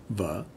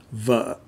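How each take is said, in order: First: Vợ said softly, low, with a rise at the end; softer Southern pronunciation. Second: Vợ dropped short and firm; Northern pronunciation. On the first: Teacher showing word for wife in the south, softer tone. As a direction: let vợ dip gently and lift. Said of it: "it sounds a little softer". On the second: Teacher showing word for wife in the north, firm tone. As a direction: cut vợ off on a falling tone. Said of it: "in the north". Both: Shown as a demonstration.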